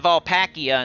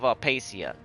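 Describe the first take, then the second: First: The name is said with 'pack' as in wolf pack. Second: The name is said without the 'pack' sound.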